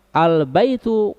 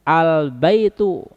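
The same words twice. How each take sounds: The two takes are said the same way.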